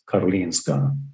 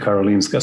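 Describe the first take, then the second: First: The name is said with Swedish pronunciation. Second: The name is said with international, English-style pronunciation. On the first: "If you really want to say it in a Swedish way" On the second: "sounds much more international"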